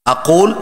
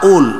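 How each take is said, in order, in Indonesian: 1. Konsonan tengahnya adalah q yang dalam dan berat di tenggorokan. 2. Konsonan tengahnya adalah hamzah.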